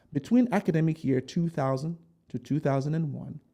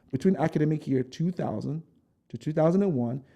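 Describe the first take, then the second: No difference in how they are said.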